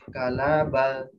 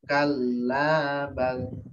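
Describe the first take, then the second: First: The L is single and short. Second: The L is doubled and the A is long. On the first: The speaker calls it wrong. "L-nya satu" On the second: The speaker calls it right. "L-nya dua, A-nya dua"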